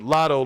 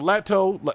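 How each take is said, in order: First: The first vowel sounds like the one in lottery. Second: The first vowel sounds like the one in lactose. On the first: "like lottery" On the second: "like lactose"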